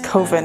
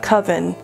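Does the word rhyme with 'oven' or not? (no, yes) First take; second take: no; yes. First: The word does not rhyme with 'oven'. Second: The word rhymes with 'oven'. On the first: The speaker calls it right. "Now it's Coven" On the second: The speaker calls it wrong. "it's not Coven, because Coven sounds too much like oven"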